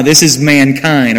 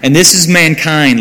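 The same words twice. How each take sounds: First: This is mankind, slower, with is pressed firmly; stress on is. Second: Said in the usual way. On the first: Shown as a demonstration. Preacher correcting women who gloat that men are grass, stressing is. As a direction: lean on the word is to correct the ladies. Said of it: "don't, uh-uh". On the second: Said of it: "ladies, okay?".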